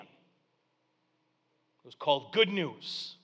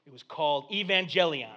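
First: "good news" drawn out very slowly, stress on "good"; slow emphasis on good news. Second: Said in the usual way. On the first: Shown as a demonstration. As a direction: linger on each word of "good news".

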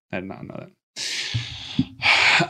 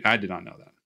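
First: Slow, hushed whisper. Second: Said in the usual way. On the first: Real, not acted. Amazed at the movie trivia, in a slow whisper. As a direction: breathe it out slowly in a whisper. Repeated remark, plain then hushed.

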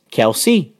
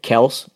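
First: Kelsey in two syllables, KEL-see; mistaken pronunciation. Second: Kels as one syllable; contrasted pronunciation. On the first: Co-host giving an example of name mistakes, two-syllable pronunciation. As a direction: say Kelsey with an EE ending. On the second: Co-host giving an example of name mistakes, one-syllable pronunciation. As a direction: say Kels to rhyme with bells. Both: Shown as a demonstration. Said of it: "sometimes people make mistakes".

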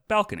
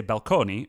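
First: Said in the usual way. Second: "balconi" Italian style, stress on "co", ending "ee"; Italian pronunciation. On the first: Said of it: "We do not say balconi, but balcony". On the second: Shown as a demonstration. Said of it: "balcony from Italian balcone".

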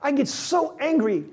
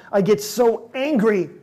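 First: I get so angry repeated with pitch jumping higher on so; 把 so 抬高，语气急切. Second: I get so angry said slowly and louder, pressing on angry; 慢而响地说 angry, 带一丝怒气; slow angry stress. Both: Shown as a demonstration.

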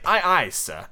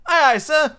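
First: Peter's instructing voice, moderately raised pitch; commanding boy captain. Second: High, loud eager echo; obedient recruit. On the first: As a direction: model the reply, measured and a bit high. Peter dictates the required reply. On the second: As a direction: answer your captain smartly, pitched way up. John obediently repeats the reply. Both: A narrator's reading.

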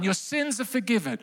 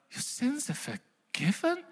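First: Gentle, declaring the pardon; announced line. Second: Soft, unbelieving question rising high; hushed disbelief. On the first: Shown as a demonstration. Preacher quotes Jesus's pardon to the crowd, softly. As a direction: say it softly like a verdict. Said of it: "that one line". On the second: Pretend. Crowd member repeats Jesus's pardon, hushed and incredulous. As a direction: echo the words as if they can't be true.

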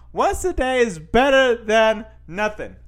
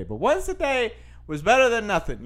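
First: Once a day is better than nothing, said slowly and pushed louder and higher; emphatic restatement. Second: Said in the usual way. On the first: Shown as a demonstration.

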